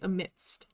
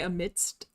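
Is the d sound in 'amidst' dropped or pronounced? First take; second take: dropped; pronounced. First: The d sound before the s is left out. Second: The d sound before the s is pronounced. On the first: "If I just ignore the D in there" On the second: "that's harder"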